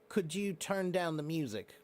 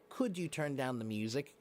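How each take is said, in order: First: The request sounds serious and stern. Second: The request sounds polite and friendly. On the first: "That's more serious, more stern" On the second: "is a little more polite"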